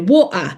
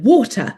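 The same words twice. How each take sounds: First: It is said in a Cockney accent. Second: It is said in a posh accent. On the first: The speaker calls it wrong. "she's got this quite sort of Cockney accent" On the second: The speaker calls it right. "no, darling"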